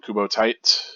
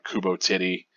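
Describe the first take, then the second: First: The second name is one syllable, like 'tight'. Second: The second name is said as two syllables. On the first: The speaker calls it right. "I pronounce the name Kubo Tight" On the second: The speaker calls it wrong. "that's not correct"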